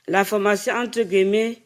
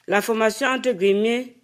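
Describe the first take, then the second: No difference in how they are said.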